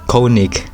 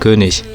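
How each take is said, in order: First: The first vowel is a plain English o sound. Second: The first vowel is a rounded front ö sound. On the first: The speaker calls it wrong. "not Konig ... I think that's uh, English pronunciation" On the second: The speaker calls it right. "he's pronounced König"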